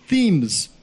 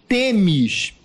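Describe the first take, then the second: First: The name begins with a 'th' sound. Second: The name begins with a plain 't' sound. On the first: The speaker calls it wrong. "Eu estava pronunciando como os americanos pronunciavam" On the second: The speaker calls it right. "agora pronunciarei TEMES"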